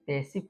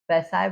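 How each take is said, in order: First: The last syllable has a short 'i' vowel. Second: The last syllable has a long 'eye' vowel. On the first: The speaker calls it right. "पैसिव पढ़ेंगे" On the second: The speaker calls it wrong. "पैसाइव नहीं"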